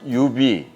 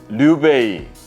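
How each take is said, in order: First: The name is said with Korean pronunciation. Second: The name is said with Chinese pronunciation.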